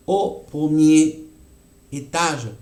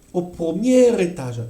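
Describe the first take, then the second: First: "au premier" slow, then break before "étage"; pause demo. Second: "Au premier étage" all in one linked flow, r into é; linked liaison. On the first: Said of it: "No hay una pausa". (con pausa antes de "étage") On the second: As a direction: run it all together. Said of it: "Es todo junto". (todo junto, enlazado) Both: Shown as a demonstration.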